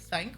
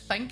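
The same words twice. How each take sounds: First: The word starts with a th sound. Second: The word starts with an f sound. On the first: "instead of T H's" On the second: "when they put F's in"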